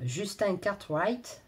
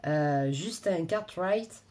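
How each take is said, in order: First: English accent. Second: Said in the usual way. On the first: Real, not acted. To her viewers, she catches herself on the author's name: slow English accent. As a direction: drop into an English accent on "Cartwright". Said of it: "j'ai un accent anglais". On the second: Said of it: "bref, passons".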